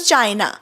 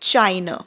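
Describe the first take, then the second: First: The final vowel is a long open 'aa'. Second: The final vowel is a short weak 'uh'. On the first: This is the common local way of saying it. "आपण म्हणतो चायना" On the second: This is how native speakers say it. "तिकडचे लोक म्हणतात चायना"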